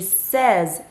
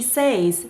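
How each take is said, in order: First: The vowel is short, like 'sez', without a glide. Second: The vowel sounds like 'say', with a y glide. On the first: The speaker calls it right. "we completely drop the y sound in that word" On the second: The speaker calls it wrong. "it's not she says she's happy"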